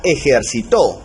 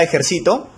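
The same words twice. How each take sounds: First: "ejercitó" stressed on the final TÓ; stress on last syllable. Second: "ejercito" stressed on CI, the next-to-last syllable; stress on penultimate syllable. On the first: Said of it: "lleva la sílaba tónica en la última". ("ejercitó" con fuerza de voz en la última sílaba, TÓ) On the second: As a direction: put the weight on CI in "ejercito". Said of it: "su sílaba tónica es la penúltima". ("ejercito" con fuerza de voz en la penúltima sílaba, CI) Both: Shown as a demonstration.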